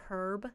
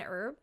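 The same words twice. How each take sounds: First: Herb with a spoken H, British style; herb said with a clear H at the start. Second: Herb with no H, American style, erb; herb said as erb, H dropped; silent H in herb. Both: Shown as a demonstration. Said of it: "why the Americans don't say the H in".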